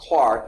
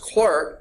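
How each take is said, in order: First: The vowel sounds like the 'ar' in 'car'. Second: The vowel sounds like the 'er' in 'her'. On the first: The speaker calls it right. "it's really pronounced Clark" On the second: The speaker calls it wrong. "It looks like it's Clerk"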